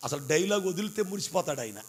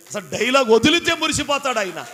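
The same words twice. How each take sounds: First: Said in the usual way. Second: Louder, punching వదిలితే with a falling end; emphatic repeat. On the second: Shown as a demonstration. Preacher repeating the line to the congregation, louder with వదిలితే stressed. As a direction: hit వదిలితే hard the second time.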